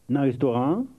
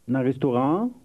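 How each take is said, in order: The two takes are said the same way.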